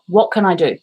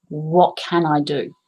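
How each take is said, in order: First: Said in the usual way. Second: Calm self-question. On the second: Retold or imitated. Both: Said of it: "I closed my eyes and I went".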